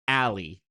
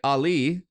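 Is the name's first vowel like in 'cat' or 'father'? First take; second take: cat; father. First: The first vowel sounds like in 'cat'. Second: The first vowel sounds like in 'father'. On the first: The speaker calls it right. "like you're walking down an alley" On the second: The speaker calls it wrong. "like Muhammad Ali"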